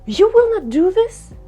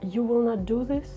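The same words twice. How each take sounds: First: It sounds surprised. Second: It sounds sad. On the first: "Or you can have a surprise" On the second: "Let's say it with a sad emotion"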